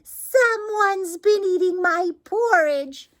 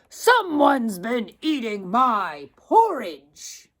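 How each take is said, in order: First: It is said in a wee, small voice. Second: It is said in a great, deep voice.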